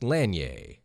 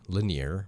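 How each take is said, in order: First: The name ends with a 'yay' sound. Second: The name does not end with 'yay'. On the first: This is the Canadian way of saying it. The speaker calls it wrong. "in Canada that is like yay, like yay, right? Like Lake Lanier" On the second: This is the local Georgia way of saying it. The speaker calls it right. "since this person is from Georgia, Lanier makes more sense"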